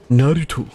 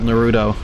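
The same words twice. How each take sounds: First: The name is said with a non-American pronunciation. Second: The name is said with an American pronunciation. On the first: The speaker calls it right. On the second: The speaker calls it wrong.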